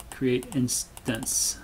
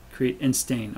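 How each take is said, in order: First: "instance" said IN-stance, slowly; correct pronunciation. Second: "instain" said as in-STAIN, rhyming with stain; misspelled word read out. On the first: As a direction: say "create instance" properly, IN-stance. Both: Shown as a demonstration. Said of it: "I cannot spell either apparently".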